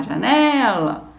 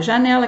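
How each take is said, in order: First: Janela called out, NE stretched long; calling the word. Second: Said in the usual way. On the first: Shown as a demonstration. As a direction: call janela with a drawn-out stressed NE. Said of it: "é só você chamar". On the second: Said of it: "é só você chamar janela".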